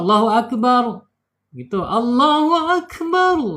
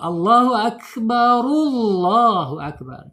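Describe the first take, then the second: First: It stops with a pause after each phrase. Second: The phrases are joined without a pause.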